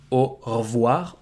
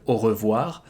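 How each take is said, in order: First: Au revoir with the E in re dropped, like o vwar; devocalized E. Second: Au revoir with the E in re said, o revwar; full E. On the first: Teacher showing the casual au revoir without the E. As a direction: au revoir, swallow the re down to just vwar. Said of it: "you can devocalize the E in re". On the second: Teacher giving the textbook au revoir with full E. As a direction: au revoir, say every syllable of re-voir. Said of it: "instead of". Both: Shown as a demonstration.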